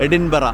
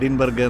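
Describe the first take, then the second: First: The name ends with a short vowel sound. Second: The name ends with a hard g sound. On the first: The speaker calls it right. "എഡിൻബറ എന്നാണ് pronounce ചെയ്യുന്നത്" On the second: The speaker calls it wrong. "അത് തെറ്റാണ്, അങ്ങനെയല്ല pronounce ചെയ്യുക"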